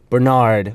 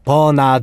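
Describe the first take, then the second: First: It is said the English way, two syllables. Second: It is said the Korean way, three syllables.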